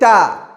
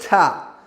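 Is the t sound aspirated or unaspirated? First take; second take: unaspirated; aspirated. First: The t is released with no puff of air. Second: The t is released with a puff of air. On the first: The speaker calls it right. "Say ta. Clear sound" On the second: The speaker calls it wrong. "do not say ta"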